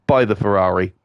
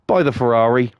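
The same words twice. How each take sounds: First: Said in the usual way. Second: Conspiratorial whisper, same pitch; sly whispered tip. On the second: Acted. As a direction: whisper it like a tempting secret. Urging, aside to a listener.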